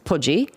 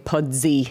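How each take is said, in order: First: The name is said in the local accent. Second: The name is said without the local accent. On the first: This is how people from the place say it. "if you're saying it in the accent and you're from there" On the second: This is how outsiders choose to say it. "But we're gonna say pudsy"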